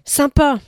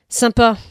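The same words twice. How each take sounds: First: It is said with lively, eager energy. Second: It is said short and final, closing down. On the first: The speaker is genuinely keen. "Quand il arrive avec son point d'exclamation. Il y a de l'élan" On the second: The speaker closes off further engagement. "avec son point final. La porte se referme"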